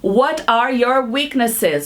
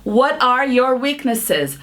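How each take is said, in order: Both takes have the same delivery.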